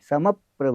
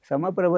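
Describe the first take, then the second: First: The syllable before the consonant cluster is stressed. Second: The word is said flat, with no stress. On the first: The speaker calls it right. "आघात देता" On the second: The speaker calls it wrong. "समप्रभ नाही"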